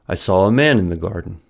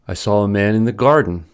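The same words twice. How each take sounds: First: The word man carries the main stress. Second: The word garden carries the main stress. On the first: It answers what was seen in the garden. "So man needs to receive the tonic stress" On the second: It answers where the man was seen. "garden must be the focus word"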